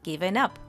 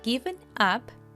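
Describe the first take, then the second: First: The two words are linked together. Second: The two words are said separately.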